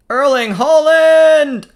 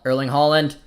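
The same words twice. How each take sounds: First: High, loud, drawn-out cry of the player's name; real match-excitement yell; excited commentator shout. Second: Said in the usual way. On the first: Real, not acted. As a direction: shout it out, stretching it as the chance comes. Shouts as Haaland gets the chance.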